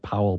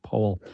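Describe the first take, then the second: First: Powell as it is spelled, POW-ul; spelling pronunciation. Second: Powell said like "pole"; correct name pronunciation. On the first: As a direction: say Powell to rhyme with towel. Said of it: "spelled like Powell". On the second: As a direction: say Powell as POH-ul, long o. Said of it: "but it's pronounced Powell". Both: Shown as a demonstration.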